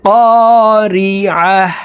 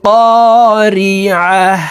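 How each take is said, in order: Both takes have the same delivery.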